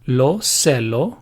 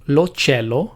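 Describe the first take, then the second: First: Cielo begins with an s sound. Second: Cielo begins with a ch sound. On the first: This is an optional form. "the optional pronunciation" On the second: This is the standard form. "the standard pronunciation"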